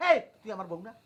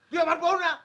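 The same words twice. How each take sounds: First: Lower-pitched, menacing question; low warning challenge. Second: Louder, higher-pitched demand; raised angry challenge. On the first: Husband asks whose wife she is, low warning. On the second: Husband demands whose wife she is, raised anger. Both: Acted.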